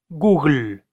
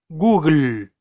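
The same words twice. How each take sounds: Both takes have the same delivery.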